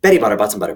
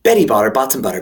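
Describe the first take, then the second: First: It is said extremely fast. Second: It is said fast.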